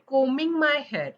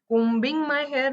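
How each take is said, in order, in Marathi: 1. combing मधील b शांत आहे. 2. combing मधील b उच्चारला जातो.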